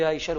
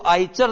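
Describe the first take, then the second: First: The middle consonant is said as 'sh'. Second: The middle consonant is said as 'ch'. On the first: The speaker calls it right. "आईशर बोला जाता है" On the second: The speaker calls it wrong. "इसको आईचर न बोल करके"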